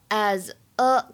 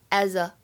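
First: The two words are said separately. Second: The two words are linked together.

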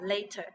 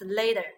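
First: The middle t is a clear t sound. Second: The middle t sounds like a soft d. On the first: The speaker calls it wrong. "It's not later" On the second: The speaker calls it right. "It's later because this T is not stressed"

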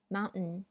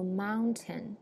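First: The t in the middle is held back, unreleased. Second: The t in the middle is clearly pronounced. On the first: "美式英语会读mountain mountain，就把那个t hold 住不读" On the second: "在英式英语里会读mountain"

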